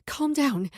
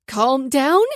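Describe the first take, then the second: First: Said in the usual way. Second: Louder, higher, incredulous echo; outraged disbelief at being told to calm down. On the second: A narrator's reading. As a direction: throw his words back at him in disbelief. Incredulous echo of his words.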